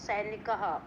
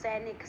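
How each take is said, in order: First: The word ends with an added breathy 'ha' sound. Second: The word ends without an added 'ha' sound.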